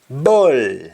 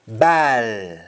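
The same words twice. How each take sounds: First: BALL with rounded "boll" vowel; English-style round vowel in BALL; English pronunciation. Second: BALL as long open "baal"; Jamaican pronunciation. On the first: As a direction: say BALL as "bawl". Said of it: "instead of saying all". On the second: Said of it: "we say al". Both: Shown as a demonstration.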